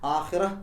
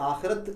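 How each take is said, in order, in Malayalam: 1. ഈ വാക്ക് മൃദുവായ h ശബ്ദത്തിലാണ് അവസാനിക്കുന്നത്. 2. ഈ വാക്ക് t ശബ്ദത്തിലാണ് അവസാനിക്കുന്നത്. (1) "ചെറിയൊരു ഹ് എന്നുള്ള ശബ്ദത്തോടു കൂടി ആഖിറ" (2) "അല്ലാതെ ആഖിറത്ത് എന്നല്ല"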